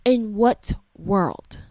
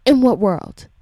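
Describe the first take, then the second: First: Slow, spaced-out IN WHAT WORLD; slow incredulity. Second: Louder, quicker IN WHAT WORLD; forceful outrage. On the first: Parent questioning a teacher's conduct, slow and incredulous. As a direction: stretch each word of "In what world" in disbelief. Repeats the outraged question slowly. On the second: Parent demanding an answer about the teacher, loud and forceful. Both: Real, not acted.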